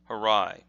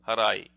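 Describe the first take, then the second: First: One syllable is stressed more than the others. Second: Every syllable gets about the same stress. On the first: The speaker calls it wrong. "if you're in the West, you would look at this and say harai" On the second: The speaker calls it right. "you pronounce every single syllable with approximately the same the same um, emphasis"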